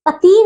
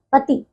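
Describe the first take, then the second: First: पति with a long, high final "ee"; mispronunciation. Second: पति with a short final "i"; correct pronunciation. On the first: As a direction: stretch पति to "patee". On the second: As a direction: keep पति short: pati. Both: Shown as a demonstration. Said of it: "पति नहीं".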